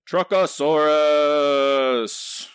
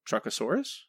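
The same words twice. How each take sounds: First: The word is yelled loudly. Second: The word is said at normal volume.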